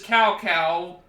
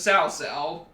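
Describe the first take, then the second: First: Each syllable begins with a hard K sound. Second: Each syllable begins with a hissing S sound. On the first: The speaker calls it wrong. "you don't pronounce it as cow cow" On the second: The speaker calls it right. "You pronounce it as sow sow"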